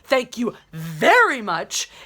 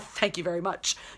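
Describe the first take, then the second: First: It is said pointedly, with a marked inflection. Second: It is said lightly, as a casual throwaway. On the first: The speaker is asserting she is winning the exchange. "she perfectly adds that inflection" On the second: The speaker is just gently teasing back. "it would be a throwaway thing"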